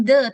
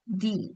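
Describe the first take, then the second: First: "the" said as "duh"; "the" cut short as "duht"; wrong way. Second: "the" said as "dee", slow and soft; "the" drawn out as a soft "dee"; right way. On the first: Teacher shows the class the wrong reading, "the" as "duh". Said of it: "jadi bukan". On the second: Teacher shows the class the right reading, "the" as "dee". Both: Shown as a demonstration.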